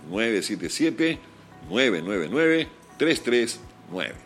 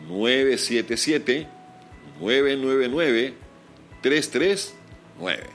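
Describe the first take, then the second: First: It is said at a normal pace. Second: It is said slowly.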